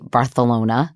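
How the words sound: It is said the way locals say it.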